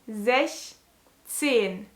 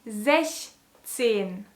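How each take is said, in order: The two takes are said the same way.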